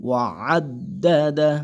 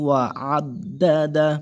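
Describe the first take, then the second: The two takes are said the same way.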